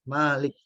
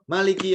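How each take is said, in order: First: The first vowel is held long. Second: The first vowel is kept short. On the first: It means the one who owns and rules. "yang ma-nya panjang" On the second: It means the king.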